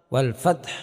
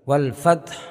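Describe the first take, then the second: Both takes have the same delivery.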